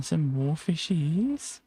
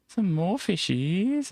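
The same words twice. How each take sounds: First: Drawn-out slow sing-song with a rising end; first lilting take. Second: Higher sing-song. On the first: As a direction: stretch it out gently. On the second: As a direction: lift it up playfully. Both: Acted. Spotting fish, said twice.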